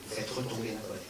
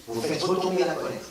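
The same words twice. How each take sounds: First: Much softer, lower, settling take of "retomber la colère"; calming down. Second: Said in the usual way. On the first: Shown as a demonstration. Speaker shows the audience anger settling, much softer and lower. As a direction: let the words sink softly as the anger drops.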